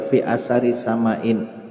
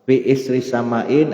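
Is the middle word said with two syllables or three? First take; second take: three; two. First: The middle word has three syllables, 'asari'. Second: The middle word has two syllables, 'isri'. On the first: "boleh dibaca fi asari sama'in" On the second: "fi isri sama'in boleh"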